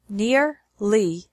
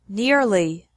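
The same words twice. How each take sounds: First: The syllables are separated by a pause. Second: The syllables run together without a pause. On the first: "once with the syllables separated" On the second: "once normally"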